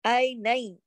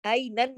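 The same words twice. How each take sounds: First: "आई नई" ending in a y glide, no n; merged noon. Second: "आई नन" ending on a clear n; unmerged noon. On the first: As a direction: say "आई नई" with the final n turned to y. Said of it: "आई नन नहीं पढ़ेंगे". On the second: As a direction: close "आई नन" on n, without a glide. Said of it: "नहीं पढ़ेंगे". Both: Shown as a demonstration.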